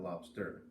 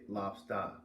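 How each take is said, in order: First: The ending is an 'er' with r. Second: The ending is an open 'ah' without r. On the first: This is how it is usually said elsewhere. "instead of lobster" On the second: This is how people from Maine say it. "they say lobster"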